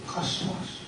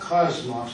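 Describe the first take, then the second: First: The middle consonant is a hissing s sound. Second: The middle consonant is a buzzing z sound. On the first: The speaker calls it right. "Not a Z, it's a sigma" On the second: The speaker calls it wrong. "It's not cosmos"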